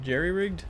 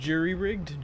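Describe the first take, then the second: First: Jerry-rigged with jerry said like JEH-ree; jerry-rigged pronunciation. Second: Jury-rigged with jury said like JOO-ree; jury-rigged pronunciation. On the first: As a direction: say Jerry-rigged, first part like the name Jerry. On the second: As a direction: say Jury-rigged, first part rhymes with "fury". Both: Shown as a demonstration. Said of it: "you say jerry-rigged or jury-rigged?".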